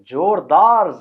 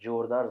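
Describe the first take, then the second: First: It is said with a dramatic signature flourish. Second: It is said plainly, in ordinary speech.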